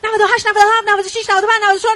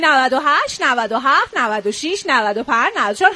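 First: The numbers run together quickly in one breath. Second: Each number is said slowly with pauses between. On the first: "با یه نفس" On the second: "نه مثل من شمرده شمرده"

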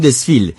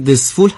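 First: The last syllable has an 'ee' vowel. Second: The last syllable has an 'oo' vowel. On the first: This is how locals say the city's name. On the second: This is the standard name of the city.

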